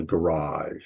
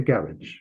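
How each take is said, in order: First: Said in the usual way. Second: "garage" with the stress moved forward, GARR-idge; British "garage", rhyming with carriage; British pronunciation. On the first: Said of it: "tend to call them garage". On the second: Shown as a demonstration. Teacher repeating the British word for students, GARR-idge for "garage". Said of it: "They move the accent forward".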